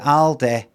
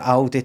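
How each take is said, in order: First: The word ends in an 'eh' sound. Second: The word ends in an 'ee' sound. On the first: "A L D E H. Because that's how they pronounce it there" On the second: "changed the sign on their Aldi"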